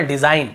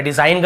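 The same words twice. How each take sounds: First: Said in the usual way. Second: डिजाइन ग said as "dizain-guh"; G sounded. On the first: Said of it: "केवल डिजाइन". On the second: Shown as a demonstration. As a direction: tack a voiced "guh" onto डिजाइन ग. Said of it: "ऐसे नहीं पढ़ रहे".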